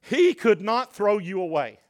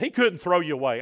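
First: "He could not" stressed word by word, raised in pitch; emphatic. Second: Said in the usual way. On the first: Real, not acted. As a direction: drive home "He could not throw you away". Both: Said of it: "emphasize this point".

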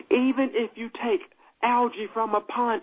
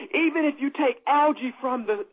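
First: Deliberate, measured restart; slowed down. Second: Quick, higher-pitched preaching; talking too fast. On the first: Preacher restarts the algae example, slowed down. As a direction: take it phrase by phrase, pausing. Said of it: "Let me slow down". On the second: Preacher racing ahead to the congregation, talking too fast. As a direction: run through it eagerly, a little hurried. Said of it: "am I talking too fast?". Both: Real, not acted.

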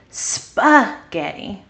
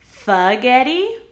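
First: Spaghetti said slowly with a clear sp blend; slow, careful spaghetti, sp fully sounded; correct spaghetti. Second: Spaghetti said as "fagetti", dropping the sp; wrong spaghetti. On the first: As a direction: spaghetti with a crisp s and p at the start. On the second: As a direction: spaghetti without the s, sp turned into f. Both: Shown as a demonstration. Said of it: "Which one is right?".

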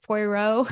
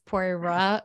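First: Poirot retried with an "oh" ending, questioning; unsure pronunciation. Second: Poirot tried as "pwa-RAH", unsure; unsure pronunciation. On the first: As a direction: say Poirot as "pwa-ROH", rising uncertainly. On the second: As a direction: say Poirot with a tentative "rah" ending. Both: Real, not acted. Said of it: "I don't know how to say it".

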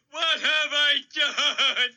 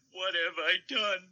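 First: Wailing. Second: Quiet broken sob; sobbing. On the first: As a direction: drag it out in a wailing cry. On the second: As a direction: sob it softly in despair. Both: Acted. Despair over wiped-out buffalo.

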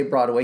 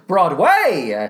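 First: Said in the usual way. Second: "Broadway" drawn out slowly with a showy swing; Jason Alexander. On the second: Retold or imitated. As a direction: imitate a stage announcer stretching out "Broadway". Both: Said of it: "The way he pronounces Broadway".

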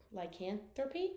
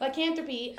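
First: "lycanthropy" said tentatively with "thuppy" at the end; "lycanthropy" with the r dropped, questioning and softer; unsure pronunciation. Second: "lycanthropy" said firmly with "thruppy" at the end; "lycanthropy" with the r sounded, as a statement; settled pronunciation. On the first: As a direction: try "lycanthropy" softly as a question, ending "-thuppy". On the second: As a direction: land on "lycanthropy" higher, ending "-thruppy". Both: Shown as a demonstration. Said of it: "is it thuppy or thruppy".

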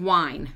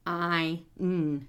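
First: Said in the usual way. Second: "w-i-n" as three separate sounds; sounded out. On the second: Shown as a demonstration. Therapist showing the sounds in wine, sounded out. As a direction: hold each sound apart in "w-i-n". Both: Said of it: "So that's".

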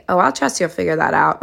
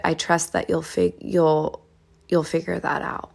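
First: Sassy mock agreement with attitude. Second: Soft, unhurried reassurance; gentle. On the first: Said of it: "you don't wanna say it sassy". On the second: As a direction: say it gently, easing off softly at the end. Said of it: "you say this with gentleness". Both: Shown as a demonstration.

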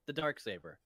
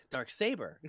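First: Said in the usual way. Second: Teasing imitation with the weight on "saber"; stress on saber. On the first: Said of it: "put the, the wrong emphasis". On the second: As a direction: say "dark saber" stressing the second word, "saber". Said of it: "The, the emphasis on saber".

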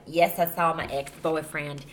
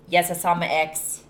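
First: Said in the usual way. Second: Slipping into a country accent. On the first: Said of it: "I don't know why I'm talking". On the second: Real, not acted. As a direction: say it with a country twang. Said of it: "I'm talking in a country accent".

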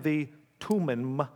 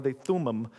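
First: "Tumim" slowly, with a hard T; tentative pronunciation. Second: "Thummim" opened with a th sound; alternative pronunciation. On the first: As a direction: say "Tumim" as TOO-mim. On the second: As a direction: offer "Thummim" with th, not hard T. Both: Shown as a demonstration. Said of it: "don't know exactly how to pronounce it".

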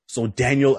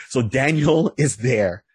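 First: Said in the usual way. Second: Slow, chuckling through the name Daniel; amused by his own joke, laughing mid-phrase. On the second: Real, not acted. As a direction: let a laugh break into the line. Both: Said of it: "I know there's a joke there".

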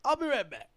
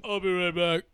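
First: High little put-on voice; higher-pitched imitated exit line; flustered starlet. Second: Lightly put-on fake voice; lightly disguise the voice, not pitched up; imitating a poor attempt at another voice. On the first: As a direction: excuse yourself in a high voice. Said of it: "she's just like". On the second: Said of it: "do a fake voice".

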